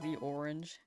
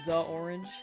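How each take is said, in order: First: The word 'the' is said as 'thee'. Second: The word 'the' is said as 'thuh'. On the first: The speaker calls it right. "you're supposed to say the apple before a vowel" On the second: The speaker calls it wrong. "It's not"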